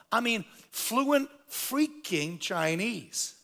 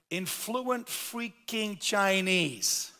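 First: Fluent freaking Chinese stretched very slowly, stressed; emphasis on freaking. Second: Fluent freaking Chinese drawn out slowly, each word hit; emphasis on freaking. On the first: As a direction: punch fluent and freaking, very slow. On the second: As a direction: lean hard on fluent freaking, very slow. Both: Real, not acted. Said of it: "I use the word freaking for emphasis".

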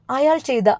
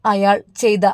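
First: അയാൾ lifted high with a falling tune; അയാൾ raised and dropped for emphasis; stress on അയാൾ. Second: Said in the usual way. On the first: A narrator's reading. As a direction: lean into അയാൾ, higher.

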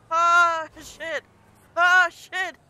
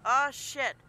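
First: Loud curse. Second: Said in the usual way. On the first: Real, not acted. Crash while driving in game.

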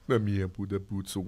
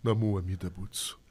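First: "Na minha Buda Butsu" as a misremembered chant, low and soft; soft monk prayer. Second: "Na Mua Mida Butsu" slow and lower, each syllable calm; soft monk prayer. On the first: Voice actor fumbles his character's prayer, low and soft. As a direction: slip into the prayer in his gentle lower voice. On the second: Voice actor repeats the corrected prayer, slow and low. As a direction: chant "Na Mua Mida Butsu" slowly and reverently. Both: Shown as a demonstration. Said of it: "Ele fala meio suave, assim".

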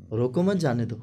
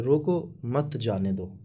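First: "रोको मत" as one unit, then "जाने दो"; no gap between रोको and मत; रोको मत run together. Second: "रोको", pause, then "मत जाने दो"; pause after रोको. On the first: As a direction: join मत onto रोको, release on जाने दो. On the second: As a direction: slowly split रोको from मत जाने दो. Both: Shown as a demonstration. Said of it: "लहजे से मिसरे को बनाया जाता है".

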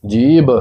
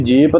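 First: Said in the usual way. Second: ਜੀਭ ending in a p sound, jeep; unvoiced final p in ਜੀਭ; wrong pronunciation demo. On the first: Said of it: "ਜਿਸ ਪ੍ਰਕਾਰ ਅਸੀਂ ਜੀਭ ਬੋਲਦੇ". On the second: Shown as a demonstration. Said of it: "ਇਸ ਪ੍ਰਕਾਰ ਨਹੀਂ ਬੋਲਦੇ".

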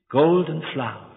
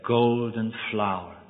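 First: Said in the usual way. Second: Slow, soft and lower, savouring "Golden flower."; tender name. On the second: Acted. Husband names his wife at last, "Golden flower." slow and tender. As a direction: breathe "Golden flower." gently and slowly. First time calling her name.

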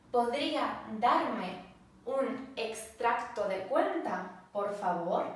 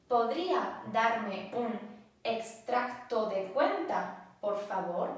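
Both takes have the same delivery.

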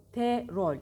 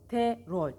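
Both takes have the same delivery.

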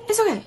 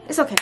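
First: Higher, louder, reassuring okay. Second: Said in the usual way. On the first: Real, not acted. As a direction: say it brightly to reassure viewers.

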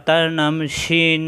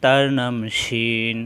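First: Slow, deliberate letter name; slow naming. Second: Lower, slow closing repeat; falling close. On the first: Teacher naming a letter slowly for pupils. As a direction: say it slowly for the class. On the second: Teacher repeating the letter name lower to close. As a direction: let it settle low and slow. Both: Shown as a demonstration. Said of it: "সিনের উপর তিন ফোঁটা".

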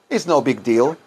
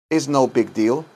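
Both takes have the same delivery.

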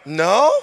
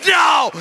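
First: No with a rising, unsure question tune; weak questioning no. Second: "No." hit high and firm with a falling end; emphatic no. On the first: Preacher mocking a timid refusal, weak questioning no. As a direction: say "No?" like you're not sure you mean it. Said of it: "it has a question mark". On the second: Preacher showing how to refuse temptation, emphatic no. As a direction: slam the door with "No.". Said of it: "an emphatic no?". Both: Acted.

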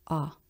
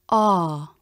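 First: "Ah" very short, low and soft; unstressed AH. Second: "Ah" long and full, pitch falling away; stressed AH. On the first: Teacher demonstrating pure unstressed ah, brief low soft "Ah". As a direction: drop "Ah" quickly and quietly. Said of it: "Pure unstressed ah". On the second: Teacher demonstrating pure stressed ah, long full "Ah". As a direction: give "Ah" its full stressed length. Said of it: "Pure stressed ah". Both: Shown as a demonstration.

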